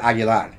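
The name is said with Spanish pronunciation. The speaker calls it right. "it's prettier when you say it Aguilar"

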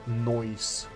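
It is said in an Irish accent.

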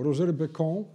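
The name is pronounced in a French style.

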